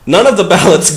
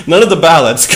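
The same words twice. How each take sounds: The two takes are said the same way.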